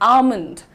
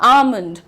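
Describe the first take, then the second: Both takes have the same delivery.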